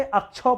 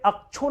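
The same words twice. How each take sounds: First: "अक्षौ" ending on an open au; au vowel ending. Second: "अक्षो" ending on a plain o; wrong vowel ending. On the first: Teacher showing students the correct reading, "अक्षौ" ending in au. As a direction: say "अक्षौ" with au, not o. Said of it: "अक्षौ पढ़ते, अ लगाना पड़ता है". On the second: Teacher showing students the misreading, "अक्षो" ending in o. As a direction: say "अक्षो" with a pure o at the end. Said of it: "अक्षो नहीं पढ़ते". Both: Shown as a demonstration.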